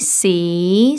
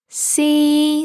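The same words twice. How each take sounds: First: The pitch starts mid and rises. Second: The pitch stays high and level. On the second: "all three together"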